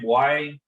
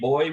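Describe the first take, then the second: First: It is said in a Belizean Creole pronunciation. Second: It is said in standard English pronunciation.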